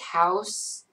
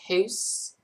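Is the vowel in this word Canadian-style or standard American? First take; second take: standard American; Canadian-style. First: The vowel is a plain American 'ow' sound. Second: The vowel is a Canadian-style 'oo'-like sound. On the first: "When you say like house" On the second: "you say hoose"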